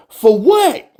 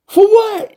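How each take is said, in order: First: Higher, louder, baffled question; baffled that anyone would interview the GM; incredulous. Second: Much higher and louder squeal; fed up that anyone wants the GM, squealing; outraged squeal. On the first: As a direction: ask it like it's absurd. Rising outrage, first of two. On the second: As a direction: shriek the question in total disbelief. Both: Real, not acted.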